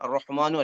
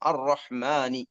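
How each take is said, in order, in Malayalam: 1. ഈ വാക്ക് u സ്വരാക്ഷരത്തിലാണ് അവസാനിക്കുന്നത്. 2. ഈ വാക്ക് i സ്വരാക്ഷരത്തിലാണ് അവസാനിക്കുന്നത്. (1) "അർ-റഹ്മാനു അല്ല" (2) "അല്ല അർ-റഹ്മാനി"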